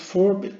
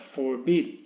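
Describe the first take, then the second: First: "forbid" wrongly stressed on the first syllable, higher in pitch. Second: "forbid" with the second syllable stressed; stress on last syllable. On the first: Teacher showing how not to say forbid, front-stressed. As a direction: punch the start of "forbid", FOR-bid. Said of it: "no es forbid". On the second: Teacher correcting the pronunciation of forbid, end-stressed. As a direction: let "forbid" land on its end, for-BID. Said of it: "Acentuación, eh, en la última sílaba". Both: Shown as a demonstration.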